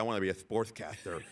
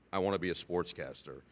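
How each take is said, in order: First: The s sounds are said with a lisp. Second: The s sounds are said clearly and normally.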